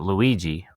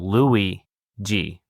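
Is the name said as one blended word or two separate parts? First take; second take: one word; two parts. First: The name is blended quickly into one word. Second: The name is said as two separate parts. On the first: The speaker calls it wrong. "not Luigi" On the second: The speaker calls it right. "So Louis G"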